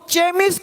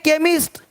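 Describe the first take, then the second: First: The word begins with a ch sound. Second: The word begins with a k sound. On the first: The speaker calls it wrong. "अब इसको चेमिस्ट नहीं पढ़ेंगे" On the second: The speaker calls it right.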